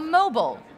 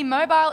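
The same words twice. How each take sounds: First: It is said in a different accent. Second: It is said in her own non-American accent. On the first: "as you might say" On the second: "but not me"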